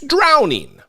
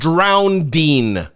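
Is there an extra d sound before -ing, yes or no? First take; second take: no; yes. First: No extra d sound comes before the ending. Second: An extra d sound comes before the ending. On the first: The speaker calls it right. "It's drowning" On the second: The speaker calls it wrong. "It's not drowning"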